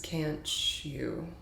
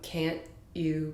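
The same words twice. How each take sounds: First: The t and y blend into a ch sound. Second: The t and y sounds stay separate.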